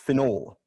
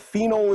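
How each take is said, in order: First: The first syllable sounds like 'fin'. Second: The first syllable does not sound like 'fin'. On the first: The speaker calls it right. "F I N N O L E" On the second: The speaker calls it wrong. "phenol is incorrect"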